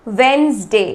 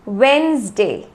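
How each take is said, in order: The two takes are said the same way.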